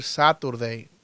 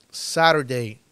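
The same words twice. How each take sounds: First: Saturday with a crisp t, "sa-tur-dei"; clear-t variant. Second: Saturday with the t as a tap, "sa-ro-dei"; tapped-t variant. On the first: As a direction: sound the t in Saturday. (Saturday con la t marcada, "sáturdei") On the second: (Saturday con t suave, como "sárordei") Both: Shown as a demonstration. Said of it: "También puedes decir Saturday".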